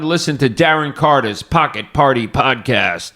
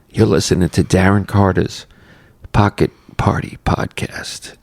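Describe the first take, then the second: First: It is said in a bright, energetic morning voice. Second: It is said in a low, mellow late-night voice.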